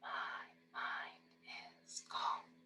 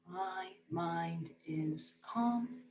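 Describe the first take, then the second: First: It is spoken in a whisper. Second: It is spoken in a normal full voice. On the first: "whisper the second time" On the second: "You're gonna say it fine the first time"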